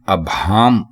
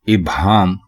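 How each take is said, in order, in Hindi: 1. पहला स्वर 'a' की आवाज़ है। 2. पहला स्वर 'i' की आवाज़ है। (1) "अभाम गलत है" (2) "इभाम दुरुस्त है"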